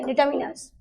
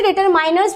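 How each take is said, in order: First: Said in the usual way. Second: "miners" sound in determiners; determiners said "deter-miners". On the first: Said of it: "वो pronunciation के accord जैसा भी है". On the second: Shown as a demonstration. Teacher showing students how some people say it, determiners as "deter-miners". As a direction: say determiners with a long "mine" inside. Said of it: "कई लोग इसे डिटरमाइनर्स भी बोलते हैं".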